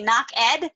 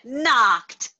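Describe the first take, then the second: First: The ending is said as a separate syllable. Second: The word is said as one syllable. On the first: The speaker calls it wrong. "some students will also then say knock ed. So if they make that mistake" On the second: The speaker calls it right. "Good, knocked, excellent"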